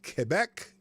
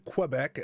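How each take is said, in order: First: It is said with a French pronunciation. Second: It is said with an American pronunciation. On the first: "a French uh, pronunciation of, of Quebec" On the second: "as we say in the States here"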